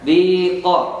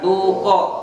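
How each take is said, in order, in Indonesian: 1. Vokal pertama adalah bunyi i. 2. Vokal pertama adalah bunyi u. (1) "itu disohehkan, ya, tidak dirubah ianya" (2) "merubah wow ianya menjadi wa wow"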